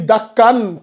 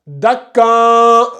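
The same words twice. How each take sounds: First: The n sound is pronounced fully and clearly. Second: The n sound is concealed, not pronounced clearly. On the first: The speaker calls it wrong. "Si tu dis dakan, tu as fait le izhar" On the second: The speaker calls it right. "tu ne prononces pas clairement... ça donne dakan"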